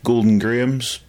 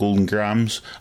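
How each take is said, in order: First: Grahams is said with a British pronunciation. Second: Grahams is said with an American pronunciation.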